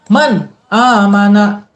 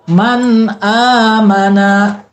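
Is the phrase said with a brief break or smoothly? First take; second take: break; smoothly. First: There is a brief catch after man. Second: It flows smoothly without a catch. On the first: The speaker calls it wrong. "terkesan berhenti sebentar tanpa ngambil napas, misalkan dikagetkan" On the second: The speaker calls it right. "Biasa aja bacanya"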